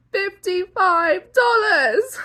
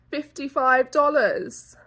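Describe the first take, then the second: First: Higher, louder, slow outraged repeat; Fifty-five dollars drawn out in disbelief. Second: Said in the usual way. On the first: Real, not acted. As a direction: repeat the price in shock.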